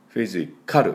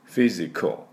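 First: Every syllable has a full, clear vowel. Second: The vowel in the last syllable is nearly dropped. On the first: The speaker calls it wrong. "フィジカルと言わないように。" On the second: The speaker calls it right. "そこまでA の音は出しません。"

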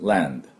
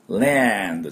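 First: The vowel is said weakly and lightly. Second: The vowel is said strongly and fully. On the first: The speaker calls it right. "land のアはあまり強く言わなくて、land ぐらいでいいんです" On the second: The speaker calls it wrong. "land じゃないです"

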